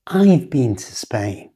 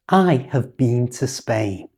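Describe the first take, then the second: First: "I've" with the ha dropped and a v pushed onto the I; contracted I've. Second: "I have been" with the full, unreduced have; full form I have. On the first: Teacher modelling how a native speaker says "I've". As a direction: blend "I've" into one syllable ending in v. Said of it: "The ha has gone". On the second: Teacher demoing the uncontracted "I have" for learners. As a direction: say "I have" slowly as two full words. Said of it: "But a native speaker would say". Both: Shown as a demonstration.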